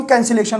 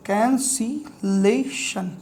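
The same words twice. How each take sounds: First: Said in the usual way. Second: cancellation very slowly, softly, broken into syllables. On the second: Shown as a demonstration. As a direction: sound out cancellation as can, si, lay, shun with gaps. Teacher sounds term out while writing.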